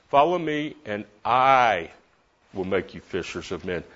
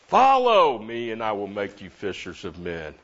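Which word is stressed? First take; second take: make; follow. First: The word make carries the main stress. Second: The word follow carries the main stress. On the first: The focus is on who does the making. "He makes me a fisher of men" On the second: The focus is on the act of following. "doesn't that make you think about following?"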